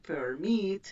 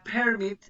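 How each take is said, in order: First: Permit stressed on the MIT, per-MIT; stress on second syllable. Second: Permit stressed on the PER, PER-mit; stress on first syllable. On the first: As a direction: lean on the last syllable of permit. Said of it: "con acento en la segunda". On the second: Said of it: "como tiene el acento en la segunda". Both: Shown as a demonstration.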